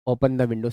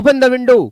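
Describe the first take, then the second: First: It sounds casual and indifferent, like a suggestion. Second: It sounds stern and authoritative, like a command. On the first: It makes no difference whether it is done. "Suggest में, कि open करो मत करो कोई फर्क नहीं" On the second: Someone in authority is commanding it. "फिर ये कमांड में चला जाएगा"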